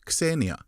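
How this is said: The word is said the Greek way. "The Greeks called it Xenia"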